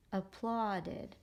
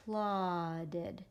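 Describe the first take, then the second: First: Said in the usual way. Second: APPLAUDED broken slowly into ap, plaud, ed; syllable-by-syllable demo. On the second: Shown as a demonstration. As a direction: sound out "Applauded" piece by piece, aw held long. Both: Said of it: "So watch me do it".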